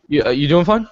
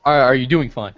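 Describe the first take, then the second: First: Quick check-in with words run together; hurried, slurred-together asking; rushed question. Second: Slower, clearer repeat of the question; measured, lower-key check-in; said slowly on request. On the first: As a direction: blurt the question out fast. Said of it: "said it so damn fast". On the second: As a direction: spell the question out more carefully. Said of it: "but say it slowly". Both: Real, not acted.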